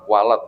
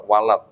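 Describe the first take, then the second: The two takes are said the same way.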